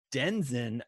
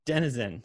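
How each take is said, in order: First: Denizen squeezed into two syllables, DEN-zin; mispronounced denizen. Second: Denizen in three syllables, DEN-ih-zen; corrected denizen. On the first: Real, not acted. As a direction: say denizen as DEN-zin, dropping the middle vowel. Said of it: "I gotta look up what denizen means". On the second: Shown as a demonstration.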